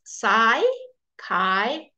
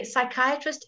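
First: "psychiatrist" slowly as sigh, KY, uh, trist; correct psychiatrist. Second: "psychiatrist" wrongly as sick-KEE-uh-trist; mispronounced psychiatrist. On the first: Teacher corrects it for students, slow sigh-KY-uh-trist. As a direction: split "psychiatrist" into long syllables with eye vowels. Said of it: "It's psychiatrist". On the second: Teacher shows students the mistake, sick-KEE-uh-trist. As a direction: say "psychiatrist" with ee for the second i. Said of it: "psychiatrist isn't psychiatrist". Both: Shown as a demonstration.

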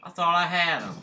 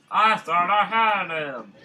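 First: Said in the usual way. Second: Drawn out louder, stressing I; frustrated slow louder repeat; loud slow lament. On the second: Real, not acted. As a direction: wail it slowly at the screen.

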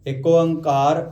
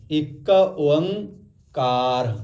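First: Said in the usual way. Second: ਇੱਕ Onkar very slow, in three parts; three separate parts. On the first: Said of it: "ਪਹਿਲੀ ਵਾਰ ਤਾਂ ਇੱਕ ਓਂਕਾਰ ਨੂੰ ਬੋਲਣਾ ਸਿੱਖੋ". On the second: Shown as a demonstration. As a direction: stretch ਇੱਕ Onkar part by part. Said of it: "ਤਿੰਨ ਭਾਗ ਹੋ ਗਏ".

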